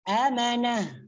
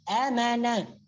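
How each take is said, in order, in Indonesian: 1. Kata ini berakhir dengan bunyi h. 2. Kata ini berakhir dengan bunyi h.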